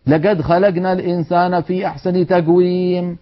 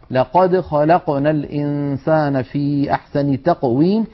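First: لقد خلقنا read with g, legad khalagna; colloquial g recitation. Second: لقد خلقنا with clear ق, slow recitation; correct qaf recitation. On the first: Retold or imitated. Teacher mimics reciters using dialect g in Quran. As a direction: recite with ق as g throughout. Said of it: "بهذا الصوت". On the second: Shown as a demonstration. Teacher models the proper Quranic qaf. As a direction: recite with true voiced ق. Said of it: "فلا نقول إلا قا".

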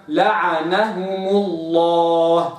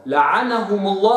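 First: لعنهم الله slow and precise with the right vowels; careful recitation of لعنهم الله; correct reading. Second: لعنهم الله with the wrong vowels, marked as the error; wrong reading. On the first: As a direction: model لعنهم الله slowly for the student. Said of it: "وإنما". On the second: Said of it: "لعنهم الله خطأ". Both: Shown as a demonstration.

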